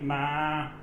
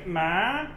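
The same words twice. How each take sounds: First: It is said with the tone meaning mother. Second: It is said with the tone meaning horse. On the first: The word means mother. "and that means mother" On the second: The word means horse. "that means horse"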